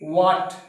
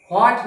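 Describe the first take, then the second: First: What loud and clear as the correct "vhat"; correct pronunciation. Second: What said loud as "aat", the w sound dropped; what without its w, as "aat", shown as the mistake; wrong pronunciation. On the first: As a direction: say what as the teacher's model, "vhat", a light v-like w, short a and a final t. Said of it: "correct pronunciation अनिवार्य है". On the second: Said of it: "गलत pronunciation इसका बहुत गलत करते हैं". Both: Shown as a demonstration.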